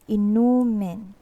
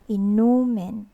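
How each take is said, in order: The two takes are said the same way.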